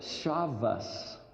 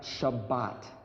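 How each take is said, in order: First: The word ends with an S sound. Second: The word ends with a T sound. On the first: This is one dialect's way of saying it. "certain people who speak Hebrew call it Shabbos" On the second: This is another dialect's way of saying it. "not Shabbat"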